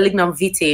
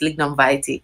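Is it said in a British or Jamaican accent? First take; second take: British; Jamaican. First: It is said with a British accent. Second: It is said with a Jamaican accent.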